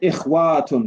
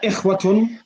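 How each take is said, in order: First: The vowel after 'ikhw' is drawn out long. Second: The vowel after 'ikhw' is kept short. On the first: The speaker calls it wrong. "it doesn't say ikhwatun. There's no alif" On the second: The speaker calls it right.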